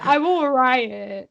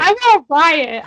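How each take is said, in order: First: Said in the usual way. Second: Loud, slow mock threat; mock outrage. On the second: Host threatens to riot over Brienne, loud mock outrage. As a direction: declare it like a rioting fan.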